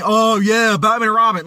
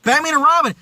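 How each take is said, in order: First: Sarcastic fake enthusiasm; mock praise. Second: Said in the usual way. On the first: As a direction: pretend to rave about it. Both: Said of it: "And you don't see me saying".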